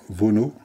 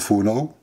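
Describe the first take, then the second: First: The name is pronounced the French way. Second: The name is pronounced the German way. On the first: "à la française" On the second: "à l'allemande"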